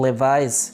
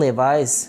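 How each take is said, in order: No difference in how they are said.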